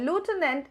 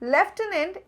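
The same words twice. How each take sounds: First: The word is said with an American pronunciation. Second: The word is said with a British pronunciation. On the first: "is the American pronunciation" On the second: "is the British pronunciation"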